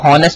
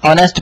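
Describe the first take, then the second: First: The word starts with an h sound. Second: The word starts with a vowel sound. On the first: The speaker calls it wrong. "इसको हॉनेस्ट नहीं पढ़ना" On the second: The speaker calls it right. "ऑनेस्ट पढ़ना है"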